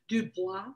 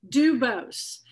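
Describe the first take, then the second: First: The name ends with a French 'bwah' sound. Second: The name ends with a 'bohz' sound. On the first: This follows the French taught in school. The speaker calls it wrong. "took all this French in high school. So I just go, Dubois" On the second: This is how the family says its own name. The speaker calls it right. "nope, it's Dubose"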